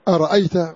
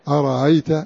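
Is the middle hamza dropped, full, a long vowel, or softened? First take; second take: full; softened. First: The second hamza is fully pronounced. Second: The second hamza is softened and said lightly. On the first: "الهمزة محققة" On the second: "قالون بتسهيل"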